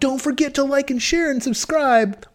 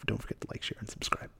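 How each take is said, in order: First: It imitates a millennial YouTuber's sign-off. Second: It is said sincerely in his own voice.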